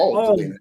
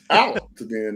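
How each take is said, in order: First: The first syllable sounds like the word 'all'. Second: The first syllable does not sound like 'all'. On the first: The speaker calls it wrong. "not all Tadina" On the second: The speaker calls it right. "It's out Tadina"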